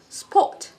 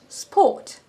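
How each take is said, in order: Both takes have the same delivery.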